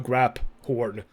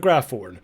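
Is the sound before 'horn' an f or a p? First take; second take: p; f. First: It is said with a p sound before horn. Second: It is said with an f sound before horn. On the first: This is how a character in the game said it. "Professor Weasley definitely called it a grap horn" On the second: This is the usual way the name is said. "not a graph horn"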